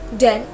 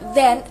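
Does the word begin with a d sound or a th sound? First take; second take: d sound; th sound. First: The word begins with a d sound. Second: The word begins with a th sound.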